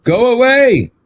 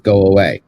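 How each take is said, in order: First: High-pitched mock yell; raised, high demonstration shout. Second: Said in the usual way. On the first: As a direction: call it out high, as if shouting someone off. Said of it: "I shouted at him". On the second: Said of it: "we all know you're yelling".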